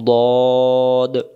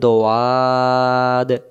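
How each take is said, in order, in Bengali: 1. নামটি একটি ছোট শব্দাংশ হিসেবে বলা হয়। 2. নামটি টেনে দুই শব্দাংশে বলা হয়। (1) "তাহলে এটাকে আমরা কি বলবো" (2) "তখন উচ্চারণ ভুল হয়ে যাবে"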